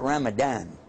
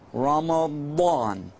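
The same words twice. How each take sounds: First: The middle syllable is said with a plain sound. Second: The middle syllable carries a special throaty sound. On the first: The speaker calls it wrong. "usually people pronounce it Ramadan" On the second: The speaker calls it right. "it's actually got a sound in mo, like this"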